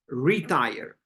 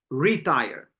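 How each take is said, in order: First: The stress is on the first syllable. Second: The stress is on the first syllable.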